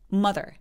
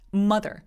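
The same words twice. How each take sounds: First: The first vowel sounds sharp, pointed and short. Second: The first vowel sounds rounder and less pointed. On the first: The speaker calls it right. "굉장히 뾰족해요" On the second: The speaker calls it wrong. "mother가 아니라"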